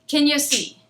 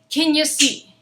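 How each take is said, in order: Both takes have the same delivery.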